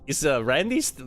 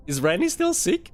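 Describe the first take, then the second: First: Said in the usual way. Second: High, lightly voiced school caller; mock school caller. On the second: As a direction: mimic the school's polite phone call, pitched up. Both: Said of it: "the school rang my dad and was like".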